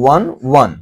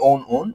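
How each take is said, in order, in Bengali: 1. শব্দটি 'w' ধ্বনি দিয়ে শুরু হয়, যেমন 'one'-এর মতো। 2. শব্দটি স্বরধ্বনি দিয়ে শুরু হয়, যেমন 'own'-এর মতো। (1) "একের ইংরেজিটার উচ্চারণ যেমন when one এটার উচ্চারণও সেম" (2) "এটাকে আমরা অনেক সময় ভুল করে own own বলি"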